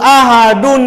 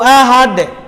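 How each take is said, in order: First: The word ends in an n linked onward. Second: The word stops without a final n sound. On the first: The phrase continues into the next words. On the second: The phrase ends here.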